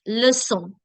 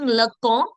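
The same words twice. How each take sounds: First: Leçon with an s sound, "luh-SON"; soft-C leçon. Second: Leçon with a hard k, "luh-KON"; wrong hard-C leçon. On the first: Teacher correcting for students, leçon with soft S. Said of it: "it's leçon". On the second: Teacher showing the mistake, leçon with hard K. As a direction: say leçon as if the C were a K. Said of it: "Instead of being leçon". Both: Shown as a demonstration.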